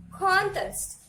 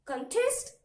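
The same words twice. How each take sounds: First: "Contest" with CON high and loud, falling on test; stress on first syllable. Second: "contest" with a higher, rising TEST; wrong stress on second syllable. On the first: Teacher models the noun for students, "Contest" stressed on con. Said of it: "you have to pronounce this word as". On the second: Teacher shows students what not to say, "contest" rising on test. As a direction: lift the end of "contest" like a question. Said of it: "it's wrong pronunciation". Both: Shown as a demonstration.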